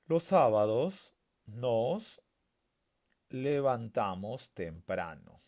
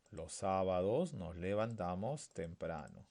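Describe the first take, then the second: First: Very slow, broken after "nos"; drawn-out classroom reading; slow dictation. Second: Slow but unbroken sentence; unhurried full repetition; measured read-back. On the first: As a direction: dictate it in pieces, stretching "sábados" and "nos". Teacher first reads sentence in pieces. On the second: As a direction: read it back slowly in one go. Teacher rereads the whole sentence. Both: Shown as a demonstration.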